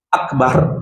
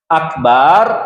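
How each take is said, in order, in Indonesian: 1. Vokal kedua diucapkan pendek. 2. Vokal kedua dipanjangkan. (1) "Akbar pendek, akbar maha besar" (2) "Akbar alat musik gendang"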